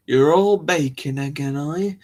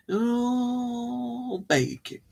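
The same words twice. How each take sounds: First: Said in the usual way. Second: High, very slow, stretched-out; mock drawn-out exclamation. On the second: Teasing listeners about their baking, playful high drawn-out voice. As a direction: hold the words long and high, playfully. Repeats the line in silly drawn-out voice.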